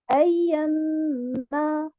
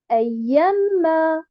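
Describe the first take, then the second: First: The 'ya' syllable carries no stress. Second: The 'ya' syllable carries the stress. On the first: The speaker calls it right. "je ne mets pas un arbre sur harakat al-ya" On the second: The speaker calls it wrong. "C'est faux"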